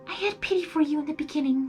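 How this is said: It is read in Fluttershy's voice.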